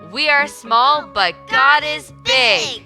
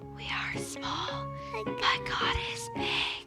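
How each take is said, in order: First: It is said very loudly. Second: It is said very quietly.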